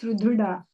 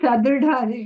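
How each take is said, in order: First: The first syllable has a 'u' vowel. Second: The first syllable has an 'a' vowel. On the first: The speaker calls it right. "It is Sudruda" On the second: The speaker calls it wrong. "she told Sadrudha"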